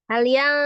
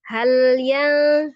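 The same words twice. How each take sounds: First: The phrase is said too quickly and rushed. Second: The phrase is said plainly at an even pace. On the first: The speaker calls it wrong. "Nah itu juga terlalu cepat, tidak boleh juga" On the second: The speaker calls it right. "tapi langsung cuma biasa aja"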